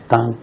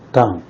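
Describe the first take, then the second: First: The pitch stays high and level. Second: The pitch falls sharply from high.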